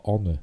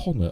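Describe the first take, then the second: First: "Honor" starting straight on the vowel; silent H in Honor. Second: "Honor" starting on a clear breath of H; H pronounced in Honor. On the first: Film fan giving his usual pronunciation, "Honor" with silent H. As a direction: say "Honor" without the H, as "onner". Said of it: "I always said Honor". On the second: Film fan questioning the title's pronunciation, "Honor" with H sounded. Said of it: "I pronounced a H". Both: Shown as a demonstration.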